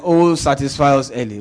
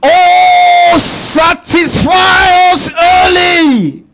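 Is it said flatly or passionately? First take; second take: flatly; passionately. First: It is said in a flat, casual way. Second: It is said as an impassioned cry.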